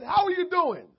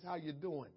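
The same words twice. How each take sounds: First: Loud, high, bright call; booming greeting. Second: Quiet, low casual question; soft greeting. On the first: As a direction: belt out the greeting. Retold greeting, loud take. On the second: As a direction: ask it softly, almost under breath. Retold greeting, quiet take. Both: Retold or imitated.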